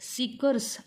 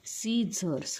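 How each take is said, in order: First: The c is pronounced as a k sound. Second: The c is silent, with no k sound. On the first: The speaker calls it wrong. "सीकर्स असा त्याचा उच्चार करायचा नाही" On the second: The speaker calls it right. "ह्या शब्दाचा उच्चार काय होतो"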